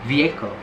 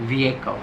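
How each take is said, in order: The two takes are said the same way.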